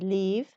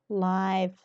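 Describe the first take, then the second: First: The vowel is short, as in 'give'. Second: The vowel is long, as in 'five'. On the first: It is used as a verb. "whenever we pronounce this word as a verb, we say leave" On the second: It is used as an adjective. "whenever it's a kind of adjective, we say live"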